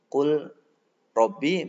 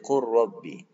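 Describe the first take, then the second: First: The l is pronounced before the r. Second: The l merges fully into the r.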